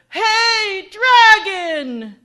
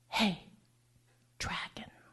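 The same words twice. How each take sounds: First: It is shouted very loudly. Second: It is whispered very softly.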